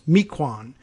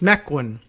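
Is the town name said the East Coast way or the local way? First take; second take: East Coast; local. First: The name is said the way an outsider would guess. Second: The name is said the way locals say it. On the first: An outsider guesses it from similar place names. The speaker calls it wrong. "an East Coast person maybe used to uh, Algonquian Indian naming taxonomy might say" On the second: This is how it is said where the town is. The speaker calls it right. "it's Mequon apparently out there in Wisconsin"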